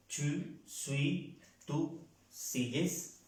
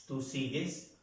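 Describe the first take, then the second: First: Slow. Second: Said in the usual way. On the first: Shown as a demonstration. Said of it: "teacher repeats conjugation slowly". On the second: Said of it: "teacher repeats conjugation".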